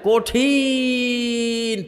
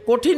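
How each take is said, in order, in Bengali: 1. স্বরধ্বনিটি অনেক বেশি টেনে লম্বা করা হয়েছে। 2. শব্দটি ছোট আর সাধারণভাবে বলা হয়েছে।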